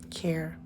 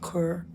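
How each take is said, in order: First: The vowel sounds like the vowel in air. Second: The vowel sounds like the vowel in her. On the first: The speaker calls it right. "you say care like you care about someone" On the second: The speaker calls it wrong. "not cur"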